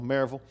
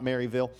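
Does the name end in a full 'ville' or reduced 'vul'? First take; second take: reduced vul; full ville. First: The last syllable is reduced to a short 'vul'. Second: The last syllable is a full 'ville'. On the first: This is how locals say it. The speaker calls it right. "That's how you say it when you're from there. V-U-L" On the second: This is how outsiders say it. The speaker calls it wrong. "not Maryville"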